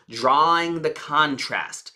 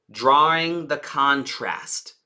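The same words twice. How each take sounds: The two takes are said the same way.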